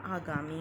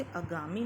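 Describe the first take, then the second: First: Said in the usual way. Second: "आगामी" opened with a short uh; wrong-form demo of "आगामी", first vowel short; mispronounced short vowel. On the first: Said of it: "होता है". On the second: Shown as a demonstration. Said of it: "अ की जगह आ तथा आ की जगह अ".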